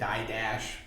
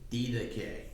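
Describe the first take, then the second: First: The word begins with 'die' and ends 'dash'. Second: The word begins with 'dee' and ends 'kay'. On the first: This is the common English pronunciation. "Most of us probably say die dash" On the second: This follows the original Greek pronunciation. "it's the way you actually pronounce it in Greek"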